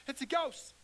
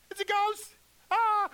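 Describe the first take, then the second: First: Frightened disciples, whispered high; scared whisper. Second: High, loud terrified yell with a scream; frightened shout. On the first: Disciples seeing a figure on the lake, frightened whisper. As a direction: hush it out in fear. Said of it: "They scared". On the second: Disciples spotting a ghost on the water, terrified shout. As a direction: cry out in panic. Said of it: "they shouted". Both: Retold or imitated.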